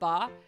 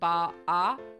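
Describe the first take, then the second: First: The vowel is short and clipped. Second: The vowel is held out long. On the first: It means aunt. "not just ba" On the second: It means grandmother. "You hold out, it, you know, it's a little longer sounding"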